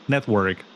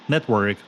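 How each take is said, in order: No difference in how they are said.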